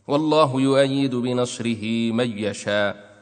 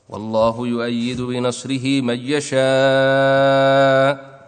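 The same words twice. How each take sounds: First: The final vowel is held short. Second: The final vowel is held a medium length. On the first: "قصر" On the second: "توسط"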